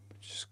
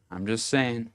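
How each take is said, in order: First: Breathy whispered aside; conspiratorial whisper. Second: Said in the usual way. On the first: Real, not acted. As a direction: lean in and whisper it. Whispered aside before advice.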